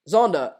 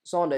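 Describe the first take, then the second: First: Zander starting on a buzzed z; Zander, voiced z opening. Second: Zander pronounced as Sander; Zander, unvoiced s opening. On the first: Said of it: "Zander is with an S". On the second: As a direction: say Zander with a hissed s instead of z. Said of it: "is with an S, by the way". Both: Shown as a demonstration.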